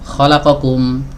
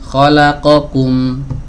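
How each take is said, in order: First: The short vowels are rushed and clipped. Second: The short vowels are evenly timed. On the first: The speaker calls it wrong. "terlalu cepat" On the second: The speaker calls it right.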